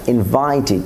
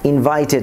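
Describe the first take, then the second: First: "ইনভাইটেড" as "invai-tid"; corrected "ইনভাইটেড". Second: "ইনভাইটেড" ending in "-ted"; wrong "ইনভাইটেড". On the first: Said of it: "টিডে পরিণত করব". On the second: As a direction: say "ইনভাইটেড" as "invaited" with e. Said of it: "ইনভাইটেড না". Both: Shown as a demonstration.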